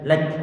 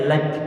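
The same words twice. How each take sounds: No difference in how they are said.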